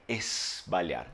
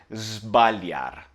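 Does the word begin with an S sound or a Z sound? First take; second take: S; Z. First: The word begins with a hissing S sound. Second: The word begins with a buzzing Z sound. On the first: The speaker calls it wrong. "Se fosse S, seria esbalhar" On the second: The speaker calls it right. "é Z"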